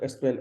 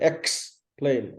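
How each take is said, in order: First: The first syllable lacks a clear 'ek' sound. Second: The first syllable has a clear 'ek' sound. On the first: The speaker calls it wrong. "Spanish people tend to say explain. It's not explain" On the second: The speaker calls it right. "Explain with the ek"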